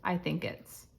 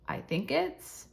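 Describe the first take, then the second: First: It is said flat, with no inflection. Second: It is said with a questioning inflection. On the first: The options are just being listed. The speaker calls it right. "keep the inflection out of our voice and very basic" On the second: The partner's own thoughts are being suggested. The speaker calls it wrong. "And not"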